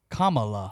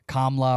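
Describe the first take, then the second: First: The name starts like 'comma', then 'la'. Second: The name does not start like 'comma'. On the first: The speaker calls it right. "Say comma and then la" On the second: The speaker calls it wrong. "the people who call her Kamala and Kamla or whatever they say"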